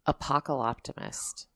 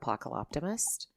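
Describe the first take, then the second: First: The word is said slowly and deliberately. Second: The word is said at normal conversational speed.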